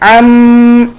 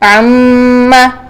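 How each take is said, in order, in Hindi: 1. यह शब्द एक रुकी हुई नासिका की गुनगुनाहट पर रुकता है। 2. यह शब्द एक खुले स्वर पर खत्म होता है।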